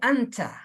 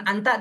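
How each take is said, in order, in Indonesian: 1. Konsonan tengahnya bunyi ch. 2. Konsonan tengahnya bunyi t yang jelas. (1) "Jangan gitu juga" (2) "bukan anta jadi anca"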